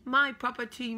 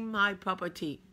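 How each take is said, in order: First: High, loud "My property"; mock possessive call. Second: Said in the usual way. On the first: Shown as a demonstration. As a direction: claim it playfully out loud.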